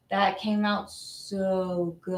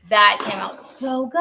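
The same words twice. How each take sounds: First: Very slow, lowered and softer marvelling; excited low voice. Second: Slightly slowed, emphatic delight; excited praise. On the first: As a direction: stretch out SO in hushed delight. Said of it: "excited when the voice goes down". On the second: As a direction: say it out loud, lifting at the end. Repeats praise in brighter delivery. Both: Real, not acted.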